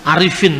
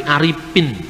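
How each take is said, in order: First: Said in the usual way. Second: Aripin said with a p in place of the f; Aripin, f turned into a plain p; Sundanese p for f. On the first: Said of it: "dia tidak bisa ngomong misalnya". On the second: Shown as a demonstration. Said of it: "Orang Sunda sulit untuk mengucapkan huruf F". (Aripin dengan bunyi p, bukan f)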